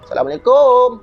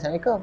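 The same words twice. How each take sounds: First: It is said loudly and strongly. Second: It is said weakly, without energy.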